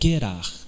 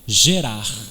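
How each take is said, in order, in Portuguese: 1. O nome é falado com pronúncia hebraica. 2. O nome é falado com pronúncia portuguesa.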